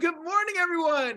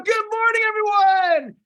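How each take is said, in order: First: It is said with somewhat more energy. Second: It is said with full energy and enthusiasm.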